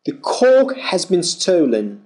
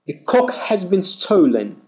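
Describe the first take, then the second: First: "cork" with a long aw vowel, r silent. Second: "cock" with a short open British o. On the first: Teacher setting "cork" against cock in class, long aw. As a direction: stretch the aw in "cork". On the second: Teacher setting "cock" against cork in class, short o. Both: Shown as a demonstration. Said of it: "Feel the difference".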